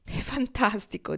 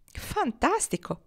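First: "È fantastico" detto lento, con un sorriso. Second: "Fantastico!" esclamato acuto e lento; esclamazione entusiasta. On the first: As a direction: assapora l'idea, sorridendo piano. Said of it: "un lento sorriso gli illuminava la faccia". (Foxy pensa all'oro, sorriso lento) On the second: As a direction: Marnie esulta trascinando la parola. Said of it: "esclamò Marnie". (Marnie esclama la notizia, entusiasta) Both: A narrator's reading.

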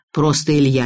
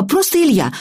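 First: Low, restrained man's voice; man correcting a child. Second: Put-on high-pitched child voice; girl echoing an adult. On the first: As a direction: correct her evenly in a lowered voice. (низкий мужской голос, поправляя) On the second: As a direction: repeat it back as a little girl, high. Girl echoes his correction. (высокий детский голос) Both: A narrator's reading.

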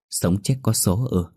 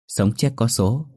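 First: "Sống chết có số ư" said slowly, stunned, with a questioning lift on "ư"; mother repeats the shaman's words, slow and stunned; slow, stunned echo. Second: Said in the usual way. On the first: Acted. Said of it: "nhận lại câu". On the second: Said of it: "thầy nói".

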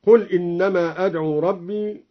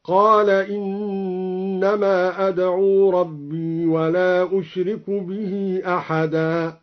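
First: Said in the usual way. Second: قال read qaala with long a instead of قل; slow recitation opening with a long قال; past tense قال. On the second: Shown as a demonstration. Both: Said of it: "على لفظ الماضي قال".

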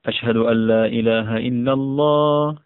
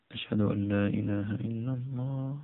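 First: Raised voice. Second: Much softer, held-back recital of the testimony; low voice. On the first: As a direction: lift the voice and call it out. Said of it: "فيرفع صوته بهما". (برفع الصوت عاليًا) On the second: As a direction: say it low and soft, as if to yourself. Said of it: "بصوت منخفض". (بصوت منخفض خافت) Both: Shown as a demonstration.

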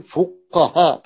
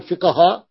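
First: فقهاء said with u, as fu, qaha; فقهاء pronounced fuqaha with damma; u on first letter. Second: فقهاء said with i, as fiqaha; فقهاء mispronounced with kasra on the fa; wrong first vowel. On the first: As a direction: split off the opening fu in فقهاء. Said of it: "بضم الفاء". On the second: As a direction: give the rejected i vowel in فقهاء. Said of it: "لا نقول". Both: Shown as a demonstration.

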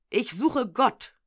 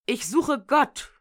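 First: Slow, pleading second cry; repeated cry. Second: Loud, slow, desperate cry. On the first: Madman repeating his cry to the crowd, slow. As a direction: call it out once more, searching. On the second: Madman crying out in the market, loud and slow. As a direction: call out across the market square. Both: A narrator's reading. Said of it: "unaufhörlich schrie".

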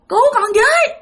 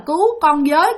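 First: High-pitched desperate cry; shouting for help. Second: Said in the usual way. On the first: Retold or imitated. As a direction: finally force out a cry for help. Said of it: "cố gắng bạn la lên được rằng". (cố hét lên cầu cứu, giọng cao) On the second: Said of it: "không thể nào mà la thành một cái câu".

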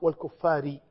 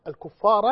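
First: والكفار ending in "-ri"; kasra on the ra. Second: الكفار ending in an open "-ra"; fatha on the ra. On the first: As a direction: say والكفار with a final short "i" after the r. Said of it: "وإما بكسر". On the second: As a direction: say الكفار with a final short "a" after the r. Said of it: "إما بفتح الراء وإما بكسر". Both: Shown as a demonstration.

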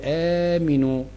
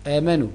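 First: آمنوا said aaminu, i under the meem, drawn out slowly; imperative aaminu. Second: آمنوا said aamanu, open a on the meem; past-tense aamanu. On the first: Teacher contrasting the imperative for students, slow aaminu with i. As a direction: slowly stretch آمنوا as the command, aa-MI-nu. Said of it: "ودي آمنوا النون تحتها كسرة". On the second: Teacher voicing the past-tense verb for students, aamanu with open a. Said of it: "آمنوا النون على ضمة". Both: Shown as a demonstration.

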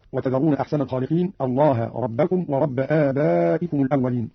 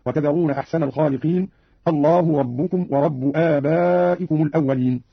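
First: Said in the usual way. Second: "الله ربكم ورب" with u endings: Allahu rabbukum wa rabbu; three words in damma. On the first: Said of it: "قرأ قالون". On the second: Shown as a demonstration. Teacher demonstrating Qalun, "الله ربكم ورب" all ending in u. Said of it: "قرأ قالون برفع لفظ الجلالة الله".

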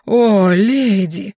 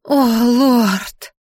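First: Slow, loud, hammed-up suitor's croon; mock bass voice. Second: Hammed-up swooning sigh, drawn out; breathy languid voice. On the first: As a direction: boom it languidly as a pretend man. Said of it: "И тут же пробасила". (нарочитым басом, протяжно) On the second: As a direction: moan it with mock-sultry breath. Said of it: "с придыханием томным голосом". (с придыханием, томным голосом) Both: A narrator's reading.

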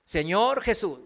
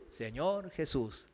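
First: Said in the usual way. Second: Señor Jesús echoed much softer and lower, slow; a new convert mumbling Señor Jesús back; half-hearted mumbled echo; mumbled repeat. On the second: Retold or imitated. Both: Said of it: "di con todo tu corazón".

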